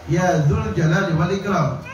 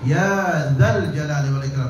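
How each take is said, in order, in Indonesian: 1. Kata setelah 'ya' memakai vokal 'u'. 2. Kata setelah 'ya' memakai vokal 'a'. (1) "tapi dia baca" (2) "Begitu juga ini"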